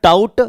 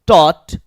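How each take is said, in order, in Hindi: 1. स्वर 'out' में 'ow' जैसा सुनाई देता है। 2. स्वर 'law' में 'aw' जैसा सुनाई देता है। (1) "नहीं करना है आपको" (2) "ऐसे पढ़ना है"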